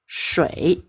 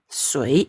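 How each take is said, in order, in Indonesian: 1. Kata ini diawali dengan bunyi 'sh'. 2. Kata ini diawali dengan bunyi 's' biasa. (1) "Shui bahasa Mandarinnya" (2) "Bahasa Hakka, sui, air"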